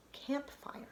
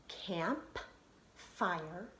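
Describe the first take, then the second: First: Said in the usual way. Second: "camp, fire" with a clear pause between; split by syllable. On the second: Shown as a demonstration. Teacher finding where the syllables are, split apart. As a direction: separate "camp" from "fire", each lifting at the end. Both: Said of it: "see where our syllables are".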